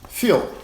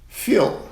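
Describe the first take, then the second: Both takes have the same delivery.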